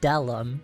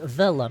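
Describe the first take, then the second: First: The first word begins with a hard d sound. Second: The first word begins with a soft th sound. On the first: The speaker calls it right. "You have to say da Lum" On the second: The speaker calls it wrong. "you can't say the Lum"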